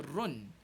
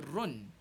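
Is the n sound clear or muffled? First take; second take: clear; clear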